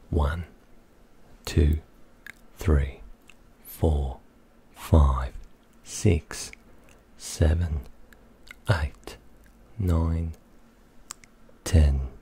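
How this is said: It is counted in an Australian accent. "That was Australian"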